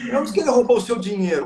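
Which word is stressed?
dinheiro. The stress is on "dinheiro".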